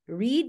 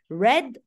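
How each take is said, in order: First: The vowel is long, rhyming with need. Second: The vowel is short, rhyming with bed. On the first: It refers to the present tense. "Read, yaqra" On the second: It refers to the past tense. "the past of read is red. Not red, the color"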